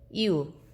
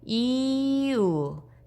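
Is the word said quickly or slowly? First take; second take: quickly; slowly. First: It is said quickly, with the vowels run together. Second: It is said slowly, with the vowels apart.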